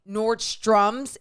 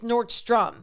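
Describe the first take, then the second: First: The name ends with an added s sound. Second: The name ends without an added s sound. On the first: The speaker calls it wrong. "people say Nordstrom's" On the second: The speaker calls it right. "It's Nordstrom"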